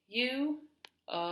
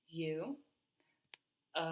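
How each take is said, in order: First: It is said at normal speed. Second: It is said very slowly, vowel held out.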